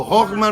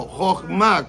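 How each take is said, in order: First: "jochma" wrongly stressed on the first syllable; "jochma" without the accent on the final A. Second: "jochma" with the last A stressed; stress on final A. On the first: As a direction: say "jochma" as JOCH-ma, the mistaken way. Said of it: "no, jochma no". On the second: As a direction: say "jochma" as joch-MA, the corrected way. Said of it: "con acento en la última A". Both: Shown as a demonstration.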